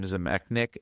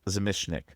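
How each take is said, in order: First: The name is pronounced as Zemechnik. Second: The name is pronounced as Zamishnik. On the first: The speaker calls it wrong. "I said it wrong" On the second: The speaker calls it right. "it's Zamishnik"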